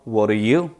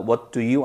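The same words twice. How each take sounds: First: The words run together smoothly and reduced. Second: Each word is said fully and separately. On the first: The speaker calls it right. "여기서도 연음되었죠" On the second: The speaker calls it wrong. "아니고"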